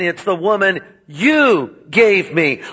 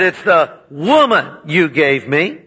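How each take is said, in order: First: The stress is on the word you. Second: The stress is on the word woman.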